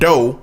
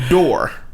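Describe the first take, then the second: First: The final r sound is dropped. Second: The final r sound is pronounced.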